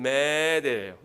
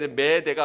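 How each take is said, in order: First: The first vowel is drawn out long. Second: The first vowel is short. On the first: The speaker calls it right. "메데 더 긴 모음" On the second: The speaker calls it wrong. "아니면"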